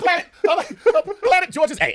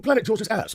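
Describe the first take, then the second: First: High, loud squeal through real laughter; helplessly cracking up on the words; laughing hard. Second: High mock-British delivery; British accent. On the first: Real, not acted. Comic cracking up at the planet's joke name, laughing hard. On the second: Comic obliging the scientist's request, British accent. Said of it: "You say with a British accent".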